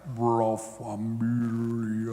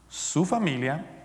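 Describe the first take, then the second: First: It is said very slowly, drawn out. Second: It is said at normal speed.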